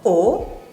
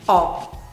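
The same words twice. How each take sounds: First: The vowel is closed, with the mouth less open. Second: The vowel is open, with the mouth wider open. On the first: "Può avere un suono chiuso" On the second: "o un suono aperto"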